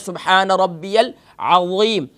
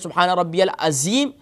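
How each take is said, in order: First: The z sound is heavy, with a full mouth. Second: The z sound is light and thin. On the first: The speaker calls it right. "अज़ीम के अंदर वा है" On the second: The speaker calls it wrong. "तो माने बदल जाते हैं"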